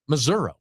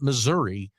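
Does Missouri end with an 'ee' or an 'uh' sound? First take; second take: uh; ee. First: The word ends with an 'uh' sound. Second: The word ends with an 'ee' sound.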